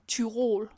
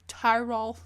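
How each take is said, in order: First: The name is said with a Danish pronunciation. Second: The name is said with an English pronunciation. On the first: "as we say in Danish" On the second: "I think you pronounce it Tyrol. Or something in English"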